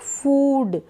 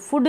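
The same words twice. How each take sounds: First: The vowel is said long. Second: The vowel is said short. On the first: The speaker calls it right. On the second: The speaker calls it wrong.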